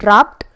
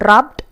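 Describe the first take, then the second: No difference in how they are said.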